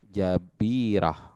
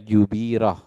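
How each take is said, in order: First: The first vowel is a. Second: The first vowel is u. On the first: The speaker calls it right. "jabirah itu fathah jimnya" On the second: The speaker calls it wrong. "jangan dibaca jubirah"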